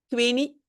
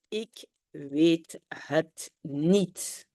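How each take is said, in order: First: The words run together in one contracted form. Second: Each word is said fully and separately.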